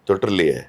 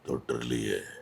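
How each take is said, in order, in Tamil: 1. இந்த வார்த்தை சாதாரண குரலில், வெளிப்படையாகச் சொல்லப்படுகிறது. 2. மெதுவாகத் தொடங்கி, முடிவில் ஆழமான பேஸ் குரலுக்குத் தாழ்கிறது. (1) "நார்மலாக இருக்கும்" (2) "சின்னதாக தொற்று, ... பேஸ் வர்ற மாதிரி வச்சேன்"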